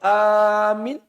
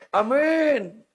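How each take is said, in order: First: The first vowel is long, the second short. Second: The first vowel is short, the second long. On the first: A question asking whether it is safe. The speaker calls it wrong. "Kalau amin apakah aman?" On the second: A prayer asking God to answer the supplication. The speaker calls it right. "A-nya pendek, minnya panjang"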